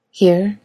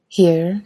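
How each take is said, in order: First: Said in the usual way. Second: A smile in her voice; smiling, teasing question. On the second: A narrator's reading. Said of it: "smile in her voice".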